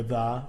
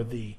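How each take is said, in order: First: Unstressed "the", rhyming with duh; THE as thuh. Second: Unstressed "the", rhyming with see; THE as thee. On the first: Teacher contrasting the two normal forms, "the" as thuh. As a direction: say "the" plainly as thuh. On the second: Teacher contrasting the two normal forms, "the" as thee. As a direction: say "the" plainly as thee. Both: Shown as a demonstration. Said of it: "we're gonna say it normally".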